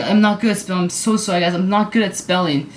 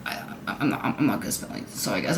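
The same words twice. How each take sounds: First: Said in the usual way. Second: Very low, half-whispered admission; hushed apology. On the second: Real, not acted. Vlogger admitting bad spelling to viewers, hushed. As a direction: say it small and under the breath.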